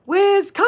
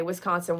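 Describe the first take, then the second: First: High, loud cheer; ringing rally shout, much higher; group cheer. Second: Said in the usual way. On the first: Pretend. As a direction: call it out for everyone to join in. Leads viewers in group cheer.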